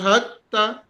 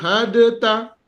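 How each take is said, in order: First: The d merges fully into a doubled t. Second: A separate d sound comes before the t. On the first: "Dal, suara dia tak muncul dah. Sebab kita masukkan kepada ta" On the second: "Asal dia patutnya baca ah"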